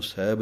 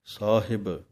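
First: ਸਾਹਿਬ quickly slurred to seb; sloppy ਸਾਹਿਬ as seb; wrong example. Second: ਸਾਹਿਬ as saa-hib, both syllables full; careful ਸਾਹਿਬ with a falling end; correct pronunciation. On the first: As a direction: clip ਸਾਹਿਬ into one short syllable. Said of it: "ਇਹਨੂੰ ਸਾਹਿਬ ਨਹੀਂ ਕਹਿਣਾ". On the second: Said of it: "ਸਾਹਿਬ ਪਾਠ ਹੈ". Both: Shown as a demonstration.

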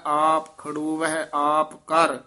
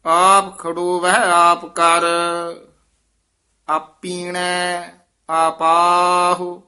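First: ਆਪ ਖੜੋ ਵਹਿ ਆਪ ਕਰ with a pause after ਕਰ. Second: Slow, measured chant of scripture; recited gurbani line. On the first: Teacher marking the pause for students, pause after ਕਰ. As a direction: stop briefly at ਕਰ. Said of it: "ਇੱਥੇ ਵਿਸਰਾਮ". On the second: Teacher reciting scripture for students, measured chant. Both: Shown as a demonstration.

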